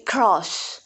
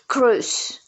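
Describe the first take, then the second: First: The vowel sounds like the one in 'cross'. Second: The vowel sounds like the one in 'cruise'. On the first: The speaker calls it right. "It must be cross" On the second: The speaker calls it wrong. "She spoke with cruise, cruise. I think it is mispronounced also"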